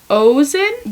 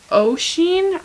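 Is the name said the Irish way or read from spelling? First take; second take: spelling; Irish. First: The name is sounded out from its spelling. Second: The name is said with its Irish pronunciation. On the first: The speaker calls it wrong. "which it's not" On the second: The speaker calls it right. "it's Oisin"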